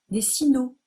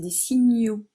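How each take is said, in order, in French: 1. La consonne se prononce 'n' simple. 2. La consonne se prononce 'gn'. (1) "comme si je disais ne à la place de gne" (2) "Non, c'est des signaux"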